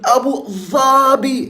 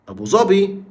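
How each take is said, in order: First: It has a tongue-out 'dh' sound after Abu. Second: It has a plain 'd' sound after Abu. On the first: This is the standard Arabic form. "مش بنقول" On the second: This is the Egyptian dialect form. "احنا بنقول"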